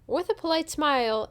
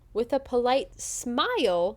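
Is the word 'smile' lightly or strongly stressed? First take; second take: lightly; strongly. First: The word smile is said without extra stress. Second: The word smile is hit with extra stress.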